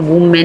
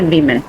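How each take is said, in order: First: The first syllable sounds like 'woo'. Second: The first syllable sounds like 'wi'. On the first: The speaker calls it wrong. "वुमेन नहीं इसको pronounce करना" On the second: The speaker calls it right. "इसको pronounce कैसे करना है"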